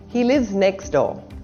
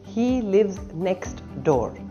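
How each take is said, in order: First: The t in 'next' is dropped. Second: The t in 'next' is clearly pronounced.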